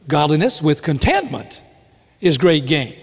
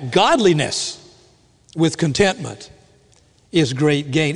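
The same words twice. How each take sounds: First: "contentment" punched above the rest; stress on contentment. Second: "Godliness" set apart and lifted, then a pause; stress on Godliness. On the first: Preacher showing the congregation the usual reading, stress on "contentment". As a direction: lean on "contentment", letting "Godliness" pass lightly. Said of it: "we like to emphasize the contentment part". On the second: Preacher correcting the congregation's emphasis, stress on "Godliness". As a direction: hit "Godliness" first, then drop back for the rest. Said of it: "it ought to be the other way around".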